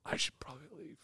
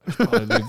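First: Voiceless aside to yourself; whispering. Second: Said in the usual way. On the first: Retold or imitated. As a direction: whisper it under your breath. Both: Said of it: "sitting there like".

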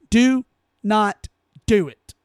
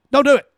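First: Slow, each word of "Do not do it" spaced apart; slow emphatic plea. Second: Higher, louder "Don't do it" with a punch on "do"; loud plea. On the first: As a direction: spell it out word by word. Repeating the plea slowly. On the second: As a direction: bark the warning at them. Pleading listeners not to comply. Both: Real, not acted.

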